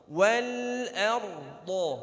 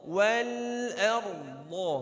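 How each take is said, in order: Both takes have the same delivery.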